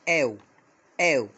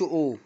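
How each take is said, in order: First: It is said as an 'ow' vowel. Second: It is said as a plain 'oh' vowel. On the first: The speaker calls it right. "بنطقهم او او زي كلمة هاوس" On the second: The speaker calls it wrong. "ما بنطقهمش او"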